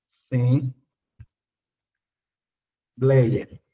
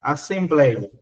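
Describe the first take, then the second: First: Stretched out very slowly, syllable by syllable, lower. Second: Said in the usual way. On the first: Shown as a demonstration. Teacher splitting the word for students, slowly syllabified. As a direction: spell out Assembleia slowly, as-sem-blei-a. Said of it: "vamos separar a palavra assembleia". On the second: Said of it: "Eita, peraí".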